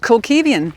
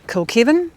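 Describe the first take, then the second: First: An extra 'ee' vowel follows the v. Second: There is no extra vowel after the v.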